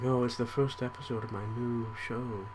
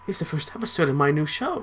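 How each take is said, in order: First: It is said flatly, without emotion. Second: It is said with lively emotion.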